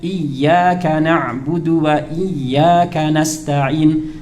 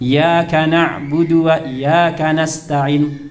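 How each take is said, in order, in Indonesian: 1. Bunyi y pada iyyaka dibaca dobel dan ditahan. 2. Bunyi y pada iyyaka dibaca pendek dan tunggal. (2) "artinya tidak ditekan"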